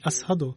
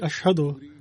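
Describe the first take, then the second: First: The middle consonant is an 's' sound. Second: The middle consonant is a 'sh' sound. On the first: This is how a non-native speaker says it. The speaker calls it wrong. "pronounce the Arabic letter Sheen as Seen" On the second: This is the standard Arabic pronunciation. The speaker calls it right. "instead of saying Ashhadu"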